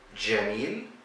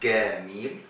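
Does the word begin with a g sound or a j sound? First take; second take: j; g. First: The word begins with a j sound. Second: The word begins with a g sound. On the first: This is the Standard Arabic form. "instead of the J sound" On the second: This is the Egyptian Arabic form. "In Egypt, we say gamil"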